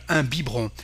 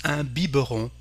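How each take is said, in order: First: "biberon" squeezed to "bee-bron"; silent middle E. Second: "biberon" in three syllables, "bee-buh-ron"; middle E pronounced. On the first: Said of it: "so we don't pronounce the". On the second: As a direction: sound the E inside "biberon" as "uh". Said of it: "you may hear in France". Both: Shown as a demonstration.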